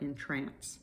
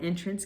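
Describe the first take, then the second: First: The stress is on the second syllable. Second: The stress is on the first syllable. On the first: It means to charm or delight. "if it's stressed on the second syllable, it can mean to charm or delight" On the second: It means a doorway. "entrance can be a doorway"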